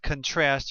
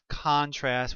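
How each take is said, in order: First: The stress is on the second syllable. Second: The stress is on the first syllable. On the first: The word is used as a verb. "When it's a verb, you usually pronounce it contrast" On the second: The word is used as a noun. "with the accent on the first syllable"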